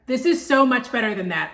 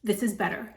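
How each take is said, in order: First: Louder, leaning on "so much better"; emphatic. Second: Said in the usual way. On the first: Shown as a demonstration.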